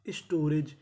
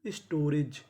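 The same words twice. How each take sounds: The two takes are said the same way.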